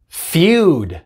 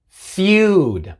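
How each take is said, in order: Both takes have the same delivery.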